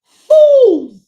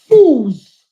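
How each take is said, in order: First: Fools yelled high and loud; furious shout. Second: Angry fools. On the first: Scolding supporters who spread lies, high furious yell. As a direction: throw the word Fools at them, high and loud. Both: Real, not acted. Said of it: "[name] sounds like she got a lot of passion".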